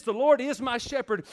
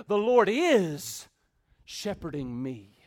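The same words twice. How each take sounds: First: Said in the usual way. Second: Slow down and set "shepherding" apart; stress on IS SHEPHERDING. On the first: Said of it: "puts the emphasis on the shepherd". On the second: Shown as a demonstration. Preacher rewording David's line, stress on IS SHEPHERDING. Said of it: "puts the emphasis on what the shepherd is doing".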